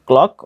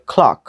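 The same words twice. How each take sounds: First: "ক্লক" with plain unaspirated k; no puff on the first k of "ক্লক"; common local pronunciation. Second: "ক্লক" with aspirated kh and open vowel; corrected pronunciation. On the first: Teacher shows learners the usual habit, unaspirated "ক্লক". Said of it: "আমরা উচ্চারণ করি ক্লক". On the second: Teacher corrects learners, aspirated k in "ক্লক". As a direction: puff of air opening "ক্লক", like khlaak. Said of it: "উচ্চারণ হবে ক্লক". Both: Shown as a demonstration.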